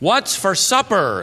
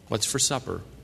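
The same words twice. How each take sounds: First: It is said very loudly. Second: It is said at normal volume.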